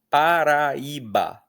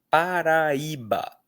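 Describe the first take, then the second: The two takes are said the same way.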